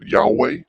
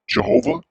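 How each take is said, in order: First: The name begins with a Y sound. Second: The name begins with a J sound. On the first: The speaker calls it right. "some people pronounce it Yahweh" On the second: The speaker calls it wrong. "some people pronounce it Jehovah"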